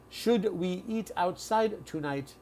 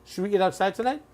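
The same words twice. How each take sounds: First: The sentence is said slowly with separate words. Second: The sentence is said fast with linked words. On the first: The speaker is simplifying for a learner. "They're speaking like that for you because they know you're you are an English learner" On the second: This is how native speakers normally talk. "So this is called fast speech or connected speech"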